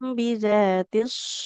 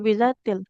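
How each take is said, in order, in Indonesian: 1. Kata itu diakhiri dengan bunyi S. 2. Kata itu diakhiri dengan bunyi L.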